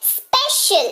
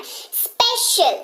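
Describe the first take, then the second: First: स्पेशल said higher, the c as sh; pronunciation demo. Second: स्पेशल drawn out very slowly, the sh held; teacher slows स्पेशल down for students; pronunciation demo. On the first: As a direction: model स्पेशल with a clear sh. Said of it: "देखिए श". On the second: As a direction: stretch स्पेशल so the sh is heard. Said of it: "तालव्य श का उच्चारण". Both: Shown as a demonstration.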